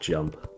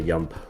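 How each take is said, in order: First: The word starts with a J sound. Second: The word starts with a Y sound. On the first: This is the usual English way. "instead of jump" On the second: This is how a Swedish speaker says it. "They like the yump"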